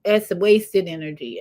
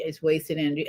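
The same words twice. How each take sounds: First: Said in the usual way. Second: Soft repeat. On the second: Real, not acted. Repeated verdict, softer.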